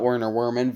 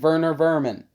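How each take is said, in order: First: The name is said with English sounds. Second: The name is said with German sounds. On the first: The speaker calls it wrong. "not Werner Werman" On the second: The speaker calls it right. "He's German"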